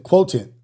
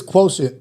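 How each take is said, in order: First: "quotient" as kwoh-tin, with a hard t. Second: "quotient" as kwoh-shunt, with an sh sound. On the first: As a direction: say "quotient" with a t in place of the sh. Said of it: "the Q is quotient". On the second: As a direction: say "quotient" with sh in the middle. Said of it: "quotient, quotient, quotient". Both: Shown as a demonstration.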